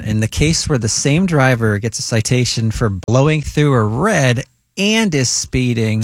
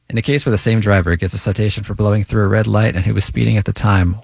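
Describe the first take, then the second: First: It is read with a pointed, sarcastic tone. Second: It is read in a flat, neutral tone.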